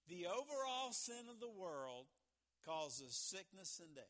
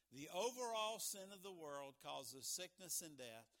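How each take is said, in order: First: Loud, deliberate, with a pause midway; measured dictation in phrases; slow dictation. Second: Said in the usual way. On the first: Real, not acted. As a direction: spell it out slowly for note-takers. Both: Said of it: "So I'll talk slow".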